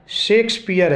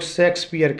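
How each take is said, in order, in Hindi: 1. यह नाम 'sh' ध्वनि से शुरू होता है। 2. यह नाम 's' ध्वनि से शुरू होता है। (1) "सही प्रोनंसिएशन शेक्सपियर है" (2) "लेकिन लोग शेक्सपियर कहते हैं"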